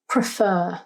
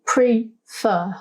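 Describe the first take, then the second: First: Said in the usual way. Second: "pre-fer" in two separate beats; split into syllables. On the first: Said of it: "When we say this word out loud". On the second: Shown as a demonstration. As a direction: pause between "pre" and "fer". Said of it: "we notice it has two syllables".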